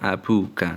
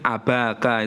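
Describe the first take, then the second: First: A u vowel follows the b sound. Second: An a vowel follows the b sound. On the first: The speaker calls it right. "Yang benar adalah" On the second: The speaker calls it wrong. "nggak boleh"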